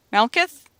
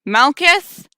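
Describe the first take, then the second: First: Said in the usual way. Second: Raised, higher questioning call; louder call. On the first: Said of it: "You call attentively into the brush". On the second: Acted. Delivery worker calling into silent woods, louder and higher. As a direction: brace yourself and call out louder. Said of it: "Say it louder".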